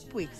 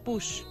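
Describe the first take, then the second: First: The name ends with a hard g sound. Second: The name ends with an sh sound. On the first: The speaker calls it wrong. "No se pronuncia Puig" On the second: The speaker calls it right. "se pronuncia Push"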